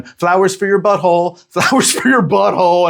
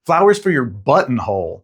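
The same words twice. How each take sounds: First: High-pitched mock British flower seller; thick British accent. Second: "buttonhole" said out in full, with the middle syllable clear; clarified "buttonhole". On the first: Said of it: "in her thick-ass British accent". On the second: Retold or imitated. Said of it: "glad to know it wasn't flowers for your butthole".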